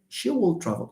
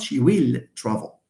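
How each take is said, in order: First: The word 'will' is reduced and unstressed. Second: The word 'will' is full and stressed.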